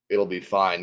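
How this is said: The tone is calm and flat. The speaker calls it right. "Let me do that one again"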